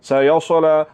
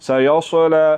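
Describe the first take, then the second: The two takes are said the same way.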